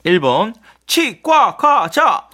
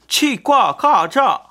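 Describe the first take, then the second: First: High and very slow, louder; drawn-out high silly answer. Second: High, very slow, louder; drawn-out high silly answer. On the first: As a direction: stretch 치과과자 out high and loud like a joke. Quiz answer read out comically. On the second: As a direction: sing 치과과자 out high and slow. Quiz answer read out again. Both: Acted.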